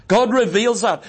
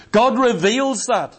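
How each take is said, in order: First: Said in the usual way. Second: "God reveals that" said slowly, each word weighed; slow it right down on "God reveals that"; slow emphasis. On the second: Shown as a demonstration. Preacher driving home that God reveals it, slowly.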